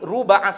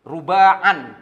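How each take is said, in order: First: The word ends without a final n sound. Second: The word ends with an added final n sound. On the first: The speaker calls it right. "yang kita sampaikan satu kali ruba'a saja" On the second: The speaker calls it wrong. "tidak boleh dibaca seperti itu"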